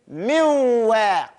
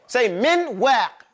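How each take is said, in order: First: The n sound merges straight into the w. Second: The n sound is pronounced clearly before w. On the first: The speaker calls it right. "you jump to the makhraj of the wow" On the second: The speaker calls it wrong. "This is incorrect"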